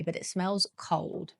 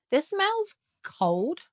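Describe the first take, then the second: First: Said in the usual way. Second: High, slow and amazed; drawn-out wonder. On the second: Real, not acted. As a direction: stretch it out in awe. First sniff of a fragrance.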